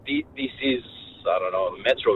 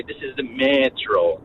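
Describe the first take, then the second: First: Said in the usual way. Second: "This is the metro" stretched slowly, each word dragged out; slow drawn-out Russian-style phrasing. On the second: Shown as a demonstration. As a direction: drag "metro" out long and slow. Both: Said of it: "we say".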